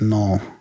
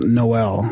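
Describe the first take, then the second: First: The name is said with one syllable. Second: The name is said with two syllables. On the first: The speaker calls it right. "I'm taking one out" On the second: The speaker calls it wrong. "It's not Noel"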